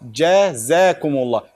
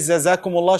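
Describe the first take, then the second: First: The word begins with a j sound. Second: The word begins with a z sound. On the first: The speaker calls it right. "should be Jazakumullah" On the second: The speaker calls it wrong. "Shouldn't be Zazakumullah"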